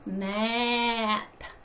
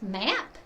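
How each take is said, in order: First: The word is said slowly, sounds stretched out. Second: The word is said quickly in one go. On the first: "and then slowly" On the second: "move fast"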